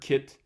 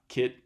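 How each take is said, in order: First: The final t ends with a puff of air. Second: The final t ends with no puff of air. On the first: "is there a little puff of air after the end of that T" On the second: "or is there not"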